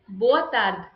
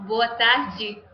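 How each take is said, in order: First: "boa tarde" ending on a bare d, no final vowel; Portugal pronunciation. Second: "boa tarde" with tarde as "tar-jee"; Brazilian pronunciation. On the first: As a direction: clip tarde to "tard", European style. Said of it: "In Portugal". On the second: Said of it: "In Brazil". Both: Shown as a demonstration.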